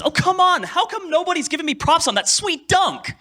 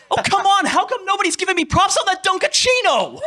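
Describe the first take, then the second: First: High shouted anime complaint; original dub line. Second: High shouted anime complaint with the joke word; ad-libbed dub line. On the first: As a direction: yell it like the sulking player on court. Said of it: "the original line was". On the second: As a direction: yell "Dunkachino" as the sulking player. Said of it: "Can I have one wild?". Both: Retold or imitated.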